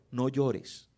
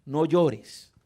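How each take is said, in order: First: Soft, gentle no llores, said quietly and low; la versión suave de Jesús: no llores, en voz baja y tierna; gentle soft take. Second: Firm no llores, fuller voice and stress on llores; Jesus speaking with authority to the grieving mother: firm, sure. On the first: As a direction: hush her gently. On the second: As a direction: command her, kindly but firmly. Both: Shown as a demonstration. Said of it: "Habló con autoridad".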